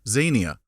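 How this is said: The word is said the British way. "The British, bless them, pronounce it Xenia, and that's the way I'm going to call it"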